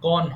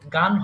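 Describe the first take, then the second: First: The vowel is a rounded 'o' sound. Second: The vowel is an open 'aa' sound. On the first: The speaker calls it right. "এটা গন হবে" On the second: The speaker calls it wrong. "গান হবে না"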